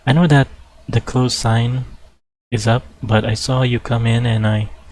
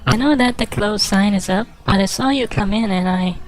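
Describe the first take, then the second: First: It is said in the speaker's normal voice. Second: It is said in a put-on woman's voice.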